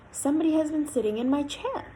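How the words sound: The voice is quiet and gentle. "in a quiet, gentle voice"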